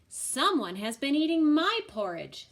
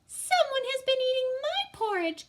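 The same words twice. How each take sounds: First: It is said in a middle-sized voice. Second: It is said in a wee small voice.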